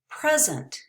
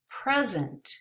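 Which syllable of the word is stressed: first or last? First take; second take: first; first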